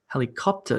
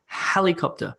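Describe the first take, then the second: First: The stress is on a later syllable. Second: The stress is on the first syllable. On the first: The speaker calls it wrong. "That would be wrong because it sounds weird" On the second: The speaker calls it right. "the word stress, is on the beginning of the word, on that first syllable"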